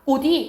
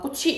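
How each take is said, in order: First: The final consonant links over as a 'd' sound. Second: The final consonant links over as a 'ch' sound. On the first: The speaker calls it right. "이렇게 발음된다" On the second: The speaker calls it wrong. "이게 이렇게 발음되는 게 아니라"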